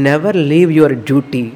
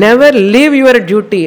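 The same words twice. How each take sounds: First: Said in the usual way. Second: Never thrown out loud and high, the word Never hit hardest; a preacher hammering home Never; emphatic never. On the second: Shown as a demonstration. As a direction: ring out Never leave your duty as a command.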